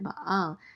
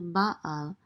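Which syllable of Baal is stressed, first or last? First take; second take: last; first. First: The stress is on the last syllable. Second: The stress is on the first syllable. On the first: It carries a sexual, heretical connotation. The speaker calls it wrong. "if you accent the last part of the of the word, the last syllable" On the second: It means master or lord. The speaker calls it right. "When you say Baal, it's um, master of or lord of"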